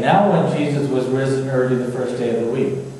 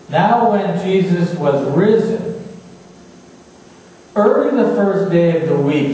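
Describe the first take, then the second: First: It runs on with no pause after risen. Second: There is a clear pause after risen. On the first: The rising happened early on the first day. The speaker calls it wrong. "Let me try and say that properly" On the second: The rising had already happened before that morning. The speaker calls it right. "Let me try and say that properly"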